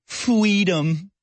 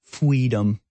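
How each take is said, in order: First: Freedom said much higher with a rising lilt; mock child voice. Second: Said in the usual way. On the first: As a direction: raise the pitch on Freedom like a cute little kid. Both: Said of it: "And I just look at her and I said".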